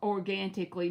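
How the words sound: It is said in a put-on character voice.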